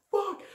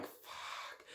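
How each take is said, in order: First: Very high, squeaked curse; mock alarm. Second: Barely voiced, very soft curse; whispered dread. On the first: Man who lit the firework realises, mock alarm. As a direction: imitate a startled yelp. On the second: Sees the firework stuck on the floor, whispered dread. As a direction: whisper it under your breath in dread.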